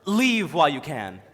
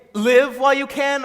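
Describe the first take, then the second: First: "Leave" with a long ee, lower and drawn out; "Leave", long vowel. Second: "Live" with a short i, higher and drawn out; "Live", short vowel. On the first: Fan offering the other reading, "Leave" with long ee. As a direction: say "Leave" to rhyme with sleeve, slowly. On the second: Fan deciphering a muffled line, "Live" with short i. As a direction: say "Live" to rhyme with give, slowly. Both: Shown as a demonstration. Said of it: "Is she saying".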